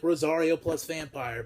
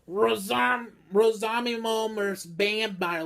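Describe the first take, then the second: First: The title's words come out smooth and clear. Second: The title's words come out stumbling and garbled. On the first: The speaker calls it right. "would just be like Rosario plus vampire" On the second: The speaker calls it wrong. "they were missing pronouncing the names and couldn't fucking pronounce it"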